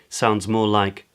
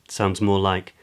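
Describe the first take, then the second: Both takes have the same delivery.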